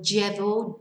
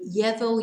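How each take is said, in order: First: The double L sounds like a 'j'. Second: The double L sounds like a 'y'. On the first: "or j" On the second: "you can say ye"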